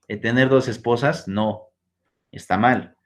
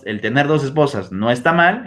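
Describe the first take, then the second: First: There are pauses before and after "no". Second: It flows without pauses around "no".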